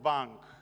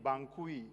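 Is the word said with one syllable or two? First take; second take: one; two. First: The word is said as one short syllable. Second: The word is said as two syllables. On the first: The speaker calls it right. "It's just bank" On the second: The speaker calls it wrong. "I kept saying Bankui"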